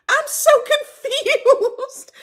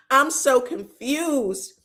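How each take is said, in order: First: High, slow and laughing through it; laughing confusion. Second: Said in the usual way. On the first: Real, not acted. Baffled by the crying friends, laughs high and slow. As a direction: dissolve into giggles mid-line.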